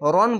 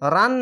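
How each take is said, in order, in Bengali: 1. এই স্বরধ্বনিটি গোলাকার, ভারী o ধ্বনি। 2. এই স্বরধ্বনিটি খোলা, হালকা aa ধ্বনি। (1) "রন বলতে হবে" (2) "রান না বলে"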